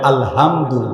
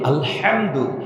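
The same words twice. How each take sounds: First: The h is soft and light, like English h. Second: The h is squeezed hard from the throat. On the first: All garbage and filth. The speaker calls it wrong. "টাইট করে উচ্চারণ না করে, হালকা থেকে" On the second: All praise. The speaker calls it right. "গলা চিপে"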